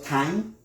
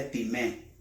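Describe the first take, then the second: First: Time said the English way as taim; English reading. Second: Time said tee-meh, both vowels sounded; Greek pronunciation. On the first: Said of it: "como se escribe en inglés". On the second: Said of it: "Time, con acento en la E". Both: Shown as a demonstration.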